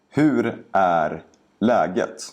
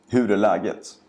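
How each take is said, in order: First: The sentence is spoken slowly and carefully. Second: The sentence is spoken quickly and naturally. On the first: "first say each sentence slowly" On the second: "and then faster, like a native speaker would"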